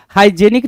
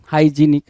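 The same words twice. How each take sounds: First: Said in the usual way. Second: हाइजीनिक said with a long ee; correct hygienic. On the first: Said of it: "हाइजेनिक ना बोल के". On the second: Shown as a demonstration. Teacher modelling the right हाइजीनिक for students. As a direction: stretch the ee in हाइजीनिक. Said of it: "हाइजेनिक ना बोल के हाइजीनिक बोलोगे".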